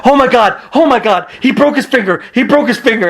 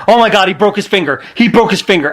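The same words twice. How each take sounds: First: Mock panic, pitched up; freaking out. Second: Panicked. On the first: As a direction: panic over a broken finger. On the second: Retold or imitated. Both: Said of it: "Daniel Bryan was freaking out".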